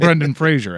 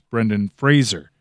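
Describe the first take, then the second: First: The surname is said like 'Frasier', with a zh sound. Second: The surname is said to rhyme with 'razor'. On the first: The speaker calls it wrong. "as everybody else says" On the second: The speaker calls it right. "like razor"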